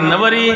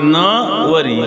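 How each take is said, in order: First: The first syllable is unstressed, joined to the rest. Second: The first syllable is stressed and set apart. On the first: I will be the bride. "Shrikrishna नवरा असेल तर मी नवरी व्हायला तयार आहे" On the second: I will not marry him. "इकडं न वर जोर दिला की अर्थ बदलतो"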